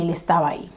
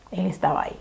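First: Said in the usual way. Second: Near-whispered, much softer; hushed repeat. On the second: Real, not acted. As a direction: drop to a whisper for suspense. (casi susurrado, con suspenso)

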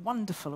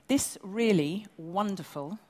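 First: Said in the usual way. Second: Slow and louder, weight on "wonderful"; slow right down and lean on "wonderful"; underlined wonderful. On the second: Shown as a demonstration. Presenter praising the award, underlined wonderful. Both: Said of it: "I really underline that word".

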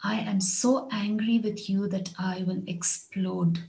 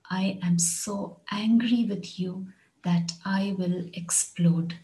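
First: Said in the usual way. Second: Slower, angry stressed, spelled out for learners; slow it down so students catch each word; slow repeat. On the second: Shown as a demonstration. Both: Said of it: "Here's another one".

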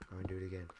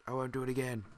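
First: Said in the usual way. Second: Louder, higher repeat of the promise; emphatic promise. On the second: Real, not acted. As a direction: insist you mean it this time. Repeated promise after swearing.

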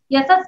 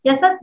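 First: Put-on "यशस" said wrongly to the child; teacher mispronounces a child's name; deliberate mispronunciation. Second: Teacher repeats the wrong name; deliberate mispronunciation. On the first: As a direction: mangle the name "यशस" on purpose. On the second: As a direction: stress the wrong "यशस" to make the point. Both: Shown as a demonstration. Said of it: "नाम गलत उच्चारण करूंगी".

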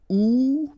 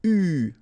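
First: "ou" said as an English oo, which is the wrong sound here. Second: "U" said as a French ü, lips rounded forward; the correct French ü; right sound. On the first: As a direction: round and wrong, the oo to avoid. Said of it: "so it's not ou". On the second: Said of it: "but it's U". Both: Shown as a demonstration.

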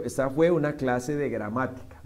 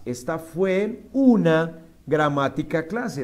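First: Said in the usual way. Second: "una gramática clase" slowly and loudly, as the mistake; slow, loud literal version; wrong word order. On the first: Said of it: "Entonces, fue". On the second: Shown as a demonstration. (orden incorrecto, lento)

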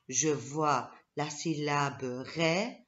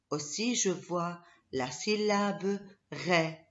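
First: "je vois la syllabe ré" read slowly, leaning on ré; teacher slowly spelling out "ré"; slow syllable stress. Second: Said in the usual way. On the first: Shown as a demonstration. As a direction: draw out "ré" so kids hear it.

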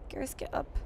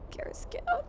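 First: Whispered plea; hushed mock urgency; urgent whisper. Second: Much higher, desperate plea; high mock-desperate plea to a fallen friend; high pleading cry. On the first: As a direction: whisper it to a fallen friend. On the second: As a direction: beg him up in a high voice. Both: Begging downed squadmate.

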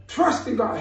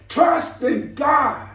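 First: Said in the usual way. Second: Slow, stressed "Trust in God", rising high; "Trust" leaned on slowly. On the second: Acted. Preacher repeating key phrase.

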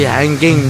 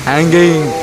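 The two takes are said the same way.

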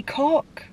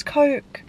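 First: "cock" with a short o in place of Coke's long o; altered vowel. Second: Said in the usual way. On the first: Shown as a demonstration. Working round the banned letter E, "cock" with short vowel for Coke. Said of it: "It will have to be cock". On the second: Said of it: "can't pronounce it as Coke".

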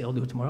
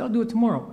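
First: Said in the usual way. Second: Higher-pitched mock reply to wife; breezy put-off. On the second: Husband answering wife about mowing the lawn, breezy put-off. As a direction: toss it off high, putting the chore off. Acted reply to wife's chore request.

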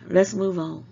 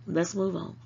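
First: A louder, firm "Let's move on", falling at the end. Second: Said in the usual way. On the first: Real, not acted. Moving her viewers off the subject, firm and louder. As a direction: cut the topic off firmly. Repeats the line to change topic.

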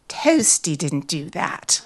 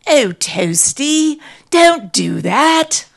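First: Put-on slow, level British-accented denial; British owner's denial. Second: Slow, loud British owner's call. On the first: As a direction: repeat it evenly in a British accent. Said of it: "she repeated". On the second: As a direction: call out to the dog, drawing it out. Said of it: "calling out". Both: A narrator's reading.

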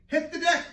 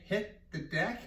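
First: High, loud laughing call; called command. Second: Said in the usual way. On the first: Shown as a demonstration. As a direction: shout it like a game command. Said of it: "as fast as you can". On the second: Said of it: "If I say".

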